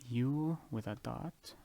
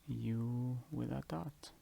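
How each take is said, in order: No difference in how they are said.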